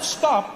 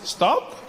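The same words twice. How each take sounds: First: It sounds like a firm, forceful command. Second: It sounds like a soft, tentative suggestion.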